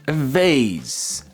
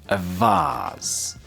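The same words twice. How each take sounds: First: It is said in an American accent. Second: It is said in a British accent. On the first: "In American English" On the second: "In um, British English, it's going to be vase"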